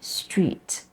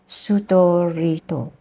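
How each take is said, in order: First: The consonant cluster is said without extra vowels. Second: Vowels are inserted between and after the consonants.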